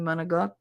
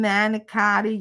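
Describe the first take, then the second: First: The word is clipped, with the final vowel dropped. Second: Every syllable is said in full, stretched out. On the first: The speaker calls it right. "You mean manigot?" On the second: The speaker calls it wrong. "Can I have some manicotti?"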